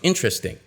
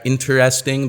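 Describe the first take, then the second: First: Some sounds in the word are dropped. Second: Every sound in the word is pronounced fully.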